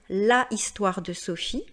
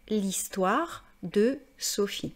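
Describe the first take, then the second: First: The article is said in full before the vowel. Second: The article is elided into the following vowel. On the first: The speaker calls it wrong. "je ne vais pas dire" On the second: The speaker calls it right.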